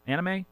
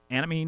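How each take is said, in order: First: Anime as "AN-uh-may", ending on ay with a lift; second take, anime ending in may, a touch higher; anime with a Japanese-style ending. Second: Anime as "AN-uh-mee", ending in ee; first take of anime, ending on a plain ee; anime said plainly. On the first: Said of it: "anime night". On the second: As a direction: say anime the usual American way, AN-uh-mee. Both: Shown as a demonstration.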